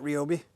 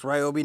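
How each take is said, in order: First: "Ryobi" said REE-oh-bee; mispronunciation shown. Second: "Ryobi" said RYE-oh-bee; correct pronunciation. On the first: Reviewer showing how not to say it, "Ryobi" starting like "ree". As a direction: open "Ryobi" with a "ree" sound. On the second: Reviewer reading the mower's screen, "Ryobi" starting like "rye". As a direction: open "Ryobi" with the sound of "rye". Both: Shown as a demonstration. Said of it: "not Ryobi".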